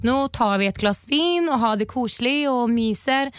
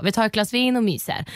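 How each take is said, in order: First: Lilting, slightly slowed Oslo Norwegian. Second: Said in the usual way. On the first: Shown as a demonstration. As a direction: demonstrate a sing-song Oslo Norwegian accent. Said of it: "om oslonorska är sån här". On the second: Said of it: "du fattar ändå".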